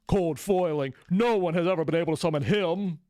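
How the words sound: It is said in a put-on character voice.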